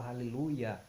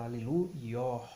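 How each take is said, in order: First: "Hallelujah" ending in a plain "ya", no breath after it; common Hallelujah. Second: "Hallelujah" as "halelu-YOH", open O with an audible H at the end; aspirated final H. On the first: Teacher showing what they don't say, "Hallelujah" with plain "ya" ending. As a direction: say "Hallelujah" run together as "haleluya", silent H. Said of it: "eles não falam". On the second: Teacher showing how they say it, "Hallelujah" ending in aspirated "YOH". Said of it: "com aspiração". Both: Shown as a demonstration.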